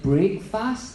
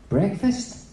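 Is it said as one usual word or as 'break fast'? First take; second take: break fast; usual word. First: It is said as two words, break and fast. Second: It is said as the usual single word. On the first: "it's break. You're breaking the fast. So I was like" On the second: "That doesn't sound right"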